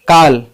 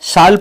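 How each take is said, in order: First: It begins with a 'k' sound. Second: It begins with an 's' sound. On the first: The speaker calls it right. "इन दोनों शब्दों में सी का sound क है" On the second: The speaker calls it wrong. "न कि साल पढ़ेंगे इसे"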